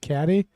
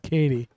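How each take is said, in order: First: The first vowel is short, as in 'cat'. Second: The first vowel is long, as in 'cake'. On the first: The speaker calls it wrong. "I actually pronounced it wrong when I, I said caddy" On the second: The speaker calls it right. "but it is Katie"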